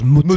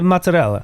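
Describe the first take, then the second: First: Said in a New Jersey Italian-American accent. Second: Said in an Italian accent with a light final a. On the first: This is not how people in Italy say it. "nobody takes the word mozzarella and goes mozzarella" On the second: This is how people in Italy say it. "In Italy, they say mozzarella"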